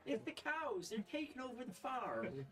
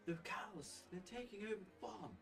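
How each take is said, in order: First: Put-on very high, loud, tearful old farm woman; proper Frida voice. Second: A higher but half-formed Frida, soon dropped; a first rough try at the farm woman; wrong Frida voice. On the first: GM redoes Frida begging the party about the cows, very high. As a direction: pitch her way up and plead. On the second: Acted. GM's first attempt at Frida's plea, higher, abandoned. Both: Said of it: "That's not how she sounds, actually".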